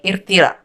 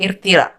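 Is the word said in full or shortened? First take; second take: shortened; shortened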